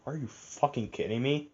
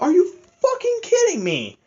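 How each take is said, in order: First: Under my breath. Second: Much higher, incredulous rant; fed-up fan blurting out disbelief; exasperated outburst. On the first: Retold or imitated. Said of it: "I said that under my breath". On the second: Real, not acted. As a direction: throw it up high in disbelief. Ranting about the movie twist.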